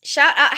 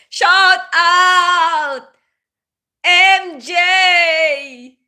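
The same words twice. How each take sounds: First: Said in the usual way. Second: Higher, louder call to a viewer; loud shout-out. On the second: Real, not acted. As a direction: belt the shout-out across the room.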